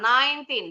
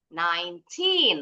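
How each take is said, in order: First: The word is said flat, with no stressed syllable. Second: The second syllable is stressed and higher. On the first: The speaker calls it wrong. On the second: The speaker calls it right.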